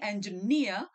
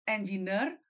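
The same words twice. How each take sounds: First: It is said with a native English pronunciation. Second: It is said with an Indonesian-style pronunciation. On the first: This is how it is heard locally. "di sini" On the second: This is how it was heard back home. "dulu di Indonesia saya dengarnya"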